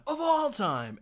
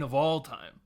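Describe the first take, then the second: First: "Of all time" pitched high and loud; emphatic repeat. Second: Said in the usual way. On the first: Retold or imitated. Fan insisting on his band, "Of all time" high and loud. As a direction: belt out "Of all time" with mock fervour.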